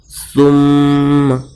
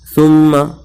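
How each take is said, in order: First: The nasal sound is held for longer. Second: The nasal sound is held only briefly. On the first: The speaker calls it right. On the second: The speaker calls it wrong.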